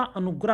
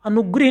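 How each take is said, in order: First: अनुग्रह said "anugrah", with a in the last syllable; correct vowel. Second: अनुग्रह said "anugrih", with i in the last syllable; wrong vowel. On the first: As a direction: end अनुग्रह on "grah". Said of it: "होता है". (अनुग्रह में ग्र के साथ अ) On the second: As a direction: put a short i into अनुग्रह. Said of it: "नहीं होता". (अनुग्रह को अनुग्रिह जैसा) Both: Shown as a demonstration.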